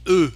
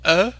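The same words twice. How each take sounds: First: E said as a tight rounded eu, as at the end of heureux; closed French eu. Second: E said as an open rounded "uh", as in peur; open French eu. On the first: Teacher contrasting two sounds for learners, closed French eu. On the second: Teacher contrasting two sounds for learners, open French eu. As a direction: say E as the looser French eu. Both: Shown as a demonstration. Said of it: "Can you hear the difference?".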